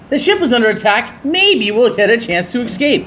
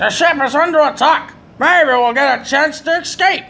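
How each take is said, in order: First: Said in the usual way. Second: Higher mock-heroic dialogue read; mock dramatic read. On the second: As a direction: ham up the game line. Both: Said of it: "Who the hell says it like that?".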